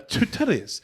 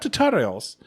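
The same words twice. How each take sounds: First: Every consonant is said crisply and clearly. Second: The consonants are slurred and not clearly said. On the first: The speaker calls it right. "I'm like I'm hitting every consonant on it" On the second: The speaker calls it wrong. "Not tutorials"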